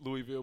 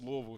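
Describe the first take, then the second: First: The name begins with a full 'Louis' sound. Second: The name begins with a reduced, shortened sound. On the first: The speaker calls it wrong. "I used to say Louis" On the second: The speaker calls it right. "now it's Louisville"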